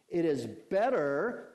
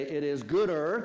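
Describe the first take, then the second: First: "better" drawn out slowly with a rising lilt; stress on better. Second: "gooder" louder, with a rising lilt; stress on gooder. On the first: Preacher reading the verse to his church, stretching "better" slowly. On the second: Preacher rewording the verse for his church, loud rising "gooder". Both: Shown as a demonstration. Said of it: "we could almost say".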